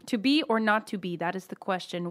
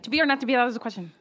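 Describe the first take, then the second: First: It is said slowly. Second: It is said very fast.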